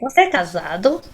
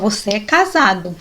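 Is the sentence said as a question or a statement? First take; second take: question; statement. First: It is said with question intonation. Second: It is said with statement intonation. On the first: It asks whether the person is married. "Para ser interrogativo" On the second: It asserts that the person is married. "Seria afirmativa"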